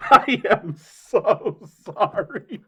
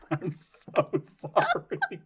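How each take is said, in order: First: Very slow, higher and louder, breaking up with laughter; louder laughing apology. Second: Very slow, words squeezed out through laughter; laughing apology. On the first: Repeating the apology to the others, laughing harder. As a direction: force each word out over real laughter. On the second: Guest apologising to the others for cracking up, laughing. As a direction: apologise while helpless with laughter. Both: Real, not acted.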